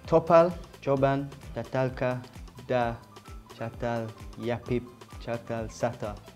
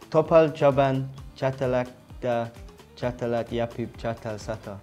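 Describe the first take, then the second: First: It is said slowly, word by word. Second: It is said faster, more run together.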